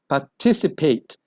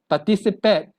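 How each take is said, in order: First: The last vowel sounds like the vowel in paid. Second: The last vowel sounds like the vowel in pet. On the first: The speaker calls it right. "It's a paid sound" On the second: The speaker calls it wrong. "not a pet sound"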